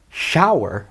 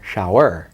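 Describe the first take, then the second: First: Shower slowly as SHOW-er; shower with a strong first vowel, weak ending; stress on first syllable. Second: Shower slowly as show-ER; mis-stress shower on its last vowel; shower with the weight on "er"; stress on second syllable. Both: Shown as a demonstration. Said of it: "Where am I putting the emphasis?".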